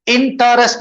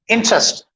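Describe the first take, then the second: First: इंटरेस्ट sounded out as "in-ta-rest"; wrong three-syllable pronunciation. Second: इंटरेस्ट as two syllables, "in-trest"; squeezed-out syllable. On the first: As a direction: give इंटरेस्ट a full middle vowel. (इंटरेस्ट को "इन-टा-रेस्ट", तीन हिस्सों में) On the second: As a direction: drop the vowel after the t in इंटरेस्ट. (इंटरेस्ट, "इन-ट्रेस्ट" दो हिस्सों में) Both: Shown as a demonstration. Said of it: "इंटरेस्ट नहीं बोलते पर".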